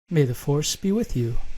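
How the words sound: It sounds calm and genuine.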